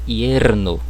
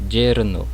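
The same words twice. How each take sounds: First: It begins with a y sound, as in yes. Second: It begins with a zh sound, as in measure. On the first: "também com som de I" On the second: "um som semelhante ao J do português"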